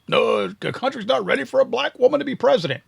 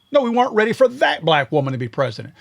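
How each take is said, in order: First: A pitched-up mock of a politician's excuse; sarcastic imitation of a losing candidate; mocking quote. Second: Said in the usual way. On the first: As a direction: parody her line, voice higher. Mocking Kamala Harris's excuse.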